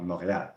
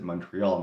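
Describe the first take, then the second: First: It is pronounced with a French accent. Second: It is pronounced with an English accent. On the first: "not Montreal ... I should probably pronounce it the French way" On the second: "in English, when I'm speaking English, I'm going to pronounce it Montreal"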